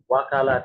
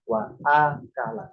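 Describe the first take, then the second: First: Wa runs straight into kala with no catch. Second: A glottal catch separates wa from akala. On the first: The speaker calls it wrong. "Tidak wakala" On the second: The speaker calls it right. "Jelas ada a-nya"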